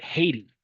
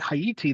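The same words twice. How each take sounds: First: The first syllable sounds like the word 'hate'. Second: The first syllable does not sound like 'hate'. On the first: "the American pronunciation of Haiti comes from is Haiti" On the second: "instead of calling it Haiti"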